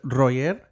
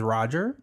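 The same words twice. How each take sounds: First: The name is said with Spanish pronunciation. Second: The name is said with English pronunciation. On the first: "So in Spanish, you would pronounce it Roger" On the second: "On my birth certificate, it says Roger"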